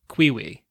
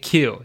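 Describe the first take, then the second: First: The word is said as two syllables. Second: The word is said as one syllable. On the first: The speaker calls it wrong. "I always pronounced it Quiwi" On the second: The speaker calls it right. "Like a Q"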